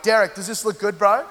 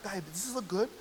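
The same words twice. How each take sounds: First: Mock-casual guy asking his mate; feigned indifference. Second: Softly voiced woman asking a friend; soft girlfriend voice. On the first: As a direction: pretend you don't care, lightly acted. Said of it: "we just pretend we don't care". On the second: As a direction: ask a girlfriend softly, lightly acted. Acting out a woman asking her friend.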